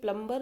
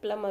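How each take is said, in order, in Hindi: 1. m के बाद b की आवाज़ बोली जाती है। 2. m के बाद b की आवाज़ साइलेंट होती है। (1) "ये प्लम्बर नहीं होता है" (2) "प्लमर होता है, बी विल बी साइलेंट"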